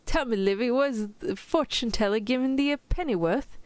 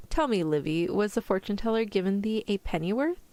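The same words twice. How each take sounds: First: Higher-pitched amateur British accent; mock-British storybook reading; attempted British accent. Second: Said in the usual way. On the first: Shown as a demonstration. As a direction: read it in your best fake British. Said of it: "in your best British accent". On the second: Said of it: "say that earlier line with the fortune teller".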